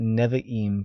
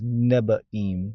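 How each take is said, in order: First: The middle consonant is a v sound. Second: The middle consonant is a b sound. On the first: This is the modern pronunciation. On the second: This is the older pronunciation from a century ago.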